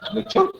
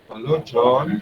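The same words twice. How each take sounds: First: It is said in a lively character voice. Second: It is said in a calm, soft voice.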